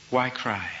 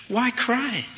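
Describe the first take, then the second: First: Said in the usual way. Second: High, questioning lift as if puzzled; surprised question. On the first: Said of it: "asked her the same question". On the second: Acted. Jesus asks Mary the same question, surprised. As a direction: ask it high, in mild astonishment. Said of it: "he said the same thing, asked her the same question".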